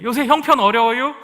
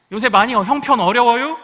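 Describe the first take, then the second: First: Loud, high roundabout Chungcheong question; 충청도 화법으로 능청스럽게; Chungcheong indirect talk. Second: Hint at it sideways, Chungcheong style; 충청도 말투로 돌려 묻기; Chungcheong indirect talk. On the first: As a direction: ask it sideways in Chungcheong style. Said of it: "이렇게 얘기하는 게 충청도 화법입니다". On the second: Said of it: "우리 충청도는 그렇게 얘기하지 않습니다". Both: Retold or imitated.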